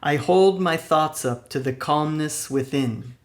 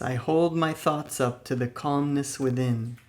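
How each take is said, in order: First: It is said loudly and energetically. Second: It is said in an ordinary speaking voice. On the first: "with a loud, energetic voice" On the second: "with a normal speaking voice"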